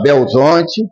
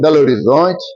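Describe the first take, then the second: First: The name is clipped the Mineiro way. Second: The city name is said in full.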